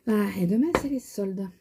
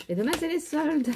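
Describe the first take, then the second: First: Said in the usual way. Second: Much higher, sing-song announcement; excited. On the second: Real, not acted. Vlogger telling viewers of tomorrow's sales, excited and high. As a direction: toss it out high and eager, like big news.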